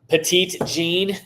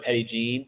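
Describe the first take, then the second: First: The first word sounds like 'petite'. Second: The first word sounds like 'petty'.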